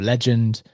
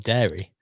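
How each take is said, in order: First: The stress falls on the opening legend part. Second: The stress falls on the closing dairy part. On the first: "one day you may be more legend" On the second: "one day you may be more dairy"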